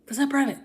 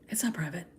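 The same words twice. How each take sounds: First: "That's not private" pitched high with the word "not" punched; emphatic insistence. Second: Quiet aside. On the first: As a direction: hit "not" hard and high, like correcting someone. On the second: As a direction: mutter it under your breath as a flat fact: "it's not private". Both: Real, not acted. Ranting about private accounts.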